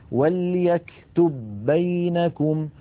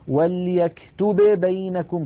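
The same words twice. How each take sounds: First: The first b merges into the second. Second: The first b is pronounced separately, not merged. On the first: The speaker calls it right. "لا بد من إدغام الباء الأولى في الثانية" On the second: The speaker calls it wrong. "ليس أحد من العرب يقول"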